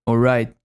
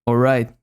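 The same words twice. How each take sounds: Both takes have the same delivery.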